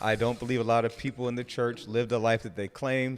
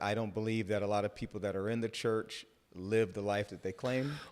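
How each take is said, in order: First: It is said louder and with more force. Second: It is said at normal volume.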